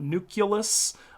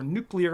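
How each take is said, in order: First: The middle syllable is said as 'cue'. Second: The middle syllable is said as 'clee'. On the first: The speaker calls it wrong. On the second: The speaker calls it right.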